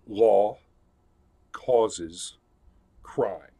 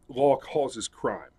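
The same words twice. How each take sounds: First: It is said slowly. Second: It is said at normal speed.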